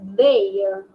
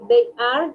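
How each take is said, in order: First: It is said as one contracted syllable. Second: It is said as two full words. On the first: "dices their" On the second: "en vez de decir they are"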